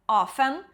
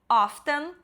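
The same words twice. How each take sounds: First: The t sound in the middle is silent. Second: The t sound in the middle is pronounced. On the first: "pode não falar" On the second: "Pode falar o T"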